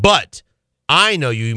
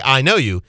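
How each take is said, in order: First: "But", a pause, then "I" leaned on, "know you" falling; "But ... I know you" with weight on "I" as a correction; stress on But and I. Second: Said in the usual way. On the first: Shown as a demonstration. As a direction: set "But" apart and press on "I". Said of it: "He said". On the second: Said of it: "notice he didn't say".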